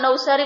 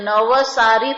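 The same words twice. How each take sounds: First: The v is clipped without a following vowel. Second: The v is followed by a full vowel. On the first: This is the everyday regional way. "ગુજરાતીમાં નવસારી બરાબર કહેવાય" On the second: This is the strictly correct form. "વની સાથે અ છે એટલે નવસારી થાય ખરેખર"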